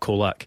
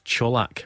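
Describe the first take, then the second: First: The name is said the anglicized way. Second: The name is said the Croatian way. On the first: The speaker calls it wrong. "and not Colak" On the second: The speaker calls it right. "Apparently it's Colak"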